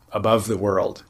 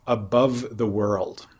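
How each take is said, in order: First: Said in the usual way. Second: Slow, deliberate quoting of "above the world". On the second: Shown as a demonstration. Quoting the suttas' phrase to the listener, slowly. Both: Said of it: "one of the little, uh, idiomatic phrases".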